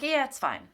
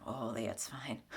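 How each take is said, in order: First: Higher, louder, breezy denial; brushing it off. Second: Soft breathless hiding of feelings; whispered brush-off. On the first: Mimicking someone hiding their feelings, breezy and higher. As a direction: say it fine when it isn't. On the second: Imitating someone hiding their feelings, whispered. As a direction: mumble it away to nobody. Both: Retold or imitated. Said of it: "versus like".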